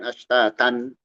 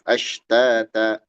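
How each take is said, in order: First: The word ends with an n sound. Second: The word ends with a lengthened a vowel. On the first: The speaker calls it wrong. "bukan ashtatan" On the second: The speaker calls it right. "Tanwin diganti menjadi alif"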